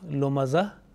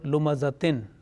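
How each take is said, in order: First: The word ends at -za without -tin. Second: The word ends with a full -tin sound. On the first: The reader stops on this word. "in waqf lumaza" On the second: This is the full form of the word. "the right word lumazatin"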